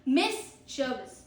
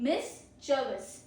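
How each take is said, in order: No difference in how they are said.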